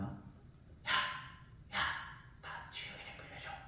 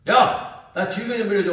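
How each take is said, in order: First: It is said quietly. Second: It is said loudly.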